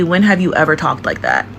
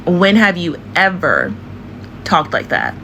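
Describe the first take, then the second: First: Said in the usual way. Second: Drawn-out EVER, pause before TALKED; slow, emphatic question. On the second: Shown as a demonstration. Challenging an actress over her accent, slow and emphatic.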